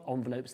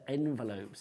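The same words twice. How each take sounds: First: The first syllable is not said as 'en'. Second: The first syllable is said as 'en'. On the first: The speaker calls it wrong. "It's not envelopes" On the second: The speaker calls it right. "It's E N"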